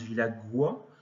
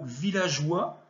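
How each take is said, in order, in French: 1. Le g est dur, comme le g dans "go". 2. Le g est doux, comme le s dans "measure". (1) "parce que sinon on prononce villagois" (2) "Vous aviez également le mot villageois"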